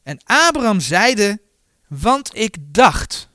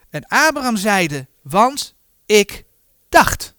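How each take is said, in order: First: Said in the usual way. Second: "Want... ik... dacht", word by word for emphasis; pointed stress on "dacht". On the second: Real, not acted. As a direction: pause before "dacht", then hit it firmly. Rereads verse to stress key word.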